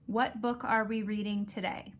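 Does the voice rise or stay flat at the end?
flat. The voice does not go up at the end.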